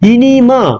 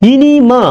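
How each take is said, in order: First: The g sound in the middle is dropped. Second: The same.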